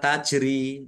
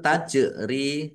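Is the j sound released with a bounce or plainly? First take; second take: plainly; bounce. First: The j is said plainly without a bounce. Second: The j is released with a clear bounce. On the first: The speaker calls it wrong. "jangan dibaca tajri" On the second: The speaker calls it right. "kalau man- memantul itu tajri"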